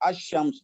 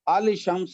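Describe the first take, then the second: First: No L sound; the sh is doubled. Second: An L sound is pronounced before shams. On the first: The speaker calls it right. "लाम नहीं पढ़ा जाता" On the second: The speaker calls it wrong. "अल शम्स नहीं कहते"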